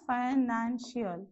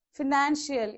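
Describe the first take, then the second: First: "financial" slowly split into syllables. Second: Said in the usual way. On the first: Shown as a demonstration. Teacher answering how many syllables, "financial" slowly broken up. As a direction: sound out "financial" slowly, each syllable separate. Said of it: "So how many you have?". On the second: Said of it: "even I A L".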